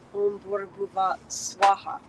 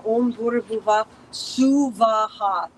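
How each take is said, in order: First: The last word is squeezed into two syllables. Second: The last word has three separate, equal syllables. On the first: The speaker calls it wrong. "not Om Bhurabhuva Swaha" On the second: The speaker calls it right. "three separate equal syllables"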